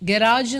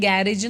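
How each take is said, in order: First: The second vowel is a long 'ah'. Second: The second vowel is an 'eh' sound. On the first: "ഗരാജ് എന്നാണ് അതിൻ്റെ pronunciation" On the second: "നമ്മൾ ഗാരേജ് എന്നാണ് പറയുക സാധാരണ"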